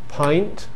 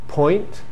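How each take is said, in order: First: The vowel is a standard eye sound. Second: The vowel sounds like the oi in point. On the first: "Instead of saying pint" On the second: "Londoners say point"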